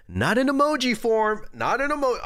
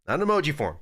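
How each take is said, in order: First: Higher, sharper, insistent; indignant high demand. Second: Said in the usual way. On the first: Pretend. Streamer demanding a real apology from chat, indignant and high. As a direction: scold chat with an indignant squeak.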